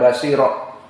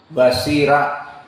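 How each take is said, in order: First: The r sound is heavy and thick. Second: The r sound is light and thin. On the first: The speaker calls it wrong. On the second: The speaker calls it right. "dibaca juga muraqqaqah seperti basira"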